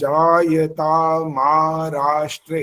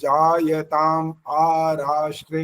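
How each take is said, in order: First: The words run together with the final m linked. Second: The words are separated with a break after jayatam. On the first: "वो इकट्ठा बोलना पड़ेगा" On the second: "आ अलग से बोला जाता है"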